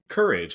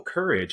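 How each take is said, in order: First: The word has a plain English pronunciation. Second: The word has a French pronunciation.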